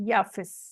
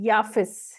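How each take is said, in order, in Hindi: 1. नाम 'y' ध्वनि से शुरू होता है। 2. नाम 'y' ध्वनि से शुरू होता है।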